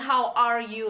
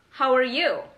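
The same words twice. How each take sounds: First: Each word is said separately and clearly. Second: The words run together into one quick unit. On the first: "bukan how are you lagi" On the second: "lebih ke how are you"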